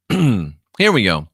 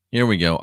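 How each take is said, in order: First: Slow, louder "Here"; slow announcement. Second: Said in the usual way. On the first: Shown as a demonstration. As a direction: announce it like a show opener.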